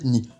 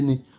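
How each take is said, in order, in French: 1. La voyelle se prononce 'ee'. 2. La voyelle se prononce 'eh'. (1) "on va quasiment toujours le prononcer ni" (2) "qu'on devrait prononcer ne"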